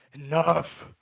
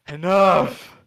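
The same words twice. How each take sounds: First: Loud, high giant roar; dopey cartoon bellow. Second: Much louder, higher giant roar; dopey cartoon bellow. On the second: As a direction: let the giant bellow at full force. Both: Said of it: "the giant says".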